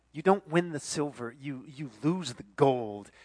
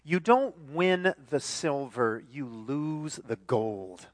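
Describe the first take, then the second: First: Said in the usual way. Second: Slowly, weighing each word; slow emphatic quote. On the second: Shown as a demonstration. Preacher reading the ad slogan, slow and weighty. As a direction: let the slogan sink in slowly. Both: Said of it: "this is what it says".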